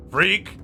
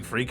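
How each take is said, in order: First: "Freak!" yelled higher and louder; mock shout of freak. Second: Said in the usual way. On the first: Shown as a demonstration. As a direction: throw "Freak!" like a taunt. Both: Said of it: "You ever had someone screaming".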